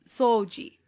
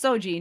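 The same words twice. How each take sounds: First: The first vowel is held long. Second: The first vowel is short. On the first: It is the word meaning to clean. "elongated O" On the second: It is only a name, not the word for cleaning. "that's just Soji"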